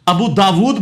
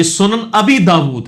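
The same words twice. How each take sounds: First: ابو داود as two plain words, a-BOO daa-WOOD; common wrong form. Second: سنن ابی داود slowly, su-nan a-BEE daa-WOOD; correct title form. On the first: Retold or imitated. Teacher quoting the mistaken title, common pronunciation. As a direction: say ابو داود with oo ending the first word. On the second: Shown as a demonstration. Teacher correcting the book's title, careful Arabic form. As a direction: say ابی deliberately with a long ee. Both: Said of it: "یہ لفظی غلط ہے".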